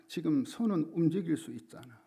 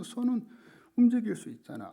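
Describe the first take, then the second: First: Said in the usual way. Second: 손은 pushed much higher and louder, rest still raised; stress on 손은. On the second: Retold or imitated. Pastor father insisting to his injured daughter, 손은 hit hard. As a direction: lean hard on 손은 to convince her.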